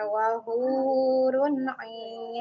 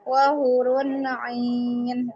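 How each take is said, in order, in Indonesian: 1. Vokal pada 'hu' dibaca panjang. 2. Vokal pada 'hu' dibaca pendek. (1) "diayun dulu dua harokat" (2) "hu-nya tadi tidak diayunkan"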